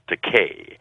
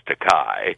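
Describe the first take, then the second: First: The name ends with a 'kay' sound. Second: The name ends with a 'kai' sound. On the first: It is the family name. The speaker calls it right. "But my name is pronounced Takei" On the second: It means expensive. The speaker calls it wrong. "there is a legitimate Japanese word that's pronounced Takai"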